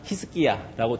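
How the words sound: The name is said the Tetum way.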